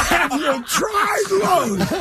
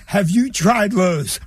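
First: High, hugely drawn-out words; incredulous mocking repeat. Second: Slow, helpful-sounding suggestion; deadpan store clerk. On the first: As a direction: stretch out the clerk's line in mocking disbelief. Incredulous repeat of clerk's punchline. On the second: Retold or imitated. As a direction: retell the clerk's earnest tip, unhurried. Clerk's straight-faced suggestion in retold story.

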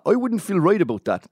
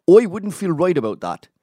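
First: Higher mock Luton accent, "I" as "oi"; terrible Tommy. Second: Luton accent, "Oi" for I, higher and louder. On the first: Doing a terrible impression of Tommy, mock Luton accent. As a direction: ham up Tommy's Luton voice badly. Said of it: "I'm doing a terrible Tommy". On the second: Shown as a demonstration. Mocking Tommy's Luton mates, Luton "Oi" accent. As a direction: lean into the Luton "Oi wouldn't". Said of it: "they say oi instead of I".

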